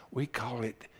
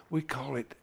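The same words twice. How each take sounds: The two takes are said the same way.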